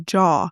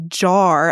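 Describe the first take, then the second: First: The final R sound is dropped. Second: The final R sound is pronounced. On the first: The speaker calls it wrong. "I would say jaw" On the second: The speaker calls it right. "I couldn't say jar"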